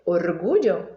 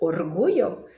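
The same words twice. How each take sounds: First: The double L sounds like zh. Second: The double L sounds like y. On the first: "Será que é com som de J" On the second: "Será que é com som de I"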